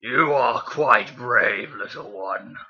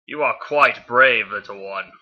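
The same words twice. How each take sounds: First: Very slow, throaty villain voice; Megatron. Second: Slow villain voice, loud start tailing off; a weak attempt at a menacing robot warlord; Megatron. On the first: Acted. Reader retrying the villain's line for the listener, slow and throaty. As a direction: drag it out from deep in the throat. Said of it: "It's like a deep, throaty voice". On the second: Reader as the villain addressing Bee, slow and measured. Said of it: "not a really good Megatron impersonation".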